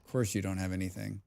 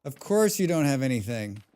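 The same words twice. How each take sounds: First: Low, quick aside; quiet, hurried remark; muttered complaint. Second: Fuller, more deliberate delivery; emphatic, exasperated repeat; voiced complaint. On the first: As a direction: grumble it quickly under your breath. First muttered take, then repeated. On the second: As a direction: say it out to the empty-handed foe. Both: Real, not acted.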